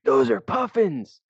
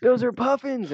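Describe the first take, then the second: First: High, slow thrilled cry of discovery; excited shout. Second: Very high, loud, giddy cry; even more excited shout. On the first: On a whale-watching boat, spotting puffins, a slow thrilled high shout. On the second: Calling out to the boat a second time, a very high giddy yell. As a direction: yell it again, totally sure. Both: Retold or imitated.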